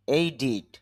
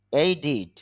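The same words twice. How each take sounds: The two takes are said the same way.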